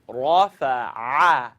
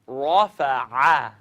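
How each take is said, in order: No difference in how they are said.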